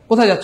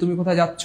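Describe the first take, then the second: First: The question is said quickly and briefly. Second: The question is stretched out slowly and long.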